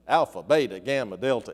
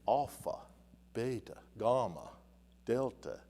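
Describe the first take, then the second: First: The letters are said in an English-sounding way. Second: The letters are said in a French-sounding way. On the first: "saying it my own way" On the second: "kind of like a French way of saying it"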